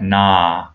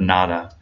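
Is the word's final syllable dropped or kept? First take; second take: dropped; kept. First: The second syllable is dropped entirely. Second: Both syllables are pronounced in full. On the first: "it sounds more like na" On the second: "instead of nada"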